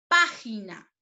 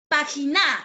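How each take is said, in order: First: The stress falls on the first syllable. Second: The stress falls on the last syllable. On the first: The speaker calls it right. "la mayor fuerza de voz en pa" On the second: The speaker calls it wrong. "Le estoy dando la mayor fuerza de voz en la sílaba na. Pero la palabra no es correcta"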